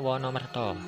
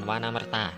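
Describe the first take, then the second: First: The vowels are read as o sounds. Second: The vowels are read as a sounds. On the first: The speaker calls it right. "bacane Wonomerto" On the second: The speaker calls it wrong.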